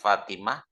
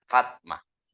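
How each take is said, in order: First: The vowel after the first T is pronounced. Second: The vowel after the first T is dropped. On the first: This is how the name is written. "tulisannya fa'ilatun seperti Fatimah" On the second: This is how the name is actually read. "itu dibaca fakha"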